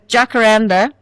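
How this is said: It is said with an English pronunciation.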